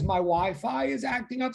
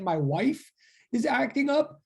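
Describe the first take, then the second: First: Said in the usual way. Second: WIFE as one drawn-out syllable, higher pitch; slow, raised-pitch quote with WIFE in place of Wi-Fi; misread WI-FI as WIFE. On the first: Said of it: "Sumaya's thing says". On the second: Retold or imitated. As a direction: read out the misreading, stretching WIFE. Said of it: "I read it fast. I totally thought it said".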